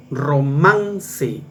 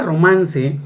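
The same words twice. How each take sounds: First: "romance" drawn out syllable by syllable, weight on "man"; teacher's demo of "romance" with a long, stressed "man". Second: Said in the usual way. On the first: Shown as a demonstration. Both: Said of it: "la fuerza de voz está en man".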